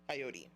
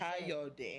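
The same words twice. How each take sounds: First: The name has a simplified, English-style pronunciation. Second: The name has its native-language pronunciation. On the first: This version is easier for others to say. "to easily, for for patients and everyone to say, ... it's Coyote" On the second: This is the true pronunciation in the native language. "In my native tongue, the pronunciation is Coyote"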